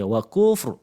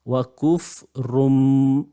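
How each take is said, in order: First: The word ends abruptly on the r sound. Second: The word ends with an added m sound. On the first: The speaker calls it right. "dia kena matikan terus wakufr" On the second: The speaker calls it wrong. "dia baca sekali dengan mim"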